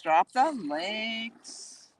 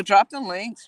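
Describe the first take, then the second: First: "Drop the links" stretched out very slowly; drawn-out repeat. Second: Said in the usual way. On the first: Real, not acted. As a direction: linger playfully on each word of "Drop the links". Repeats prompt, drawing it out.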